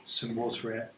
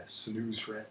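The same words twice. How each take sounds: First: Said in the usual way. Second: "Senusret" with "oo" in the middle; "Senusret", u vowel replacing "wo"; oo variant. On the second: Shown as a demonstration. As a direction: say "Senusret" as sen-OOS-ret, without a w. Lists variant pronunciations of one name.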